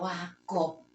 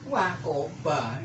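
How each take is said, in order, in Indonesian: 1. Kata itu berakhir dengan konsonan, vokal akhir dihilangkan. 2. Kata itu berakhir dengan vokal penuh. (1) "jangan dibaca wakop" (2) "wakoba ya, dibaca"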